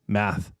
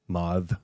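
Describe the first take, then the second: First: The word is said with the vowel of 'cat'. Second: The word is said with the vowel of 'cause'. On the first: This is the usual way of saying the word. The speaker calls it right. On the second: This imitates how someone else said the word. The speaker calls it wrong.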